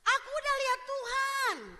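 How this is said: It is said excitedly, with strong expression. The speaker calls it right. "pasti matanya agak sedikit melotot kan? ... Ada ekspresi yang diungkapkan"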